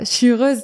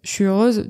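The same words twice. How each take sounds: First: It sounds convincing and genuinely happy. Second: It sounds unconvincing and unhappy.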